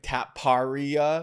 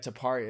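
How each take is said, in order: First: The first syllable sounds like the word 'tap'. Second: The first syllable does not sound like 'tap'. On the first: The speaker calls it wrong. "like a tap card, like Taparia" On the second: The speaker calls it right. "His last name's Taparia"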